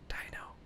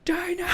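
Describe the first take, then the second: First: The word is said in a soft whisper. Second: The word is said in a loud yell. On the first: "we'd whisper it, and she'd whisper it back" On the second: "and then we'd yell it"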